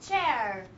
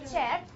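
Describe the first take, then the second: First: The tongue curls backwards for the r. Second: The tongue tip touches the ridge for r. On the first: The speaker calls it right. "Try to curl your tongue, back" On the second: The speaker calls it wrong. "It's not chair"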